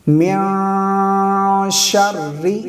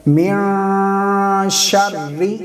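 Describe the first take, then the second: No difference in how they are said.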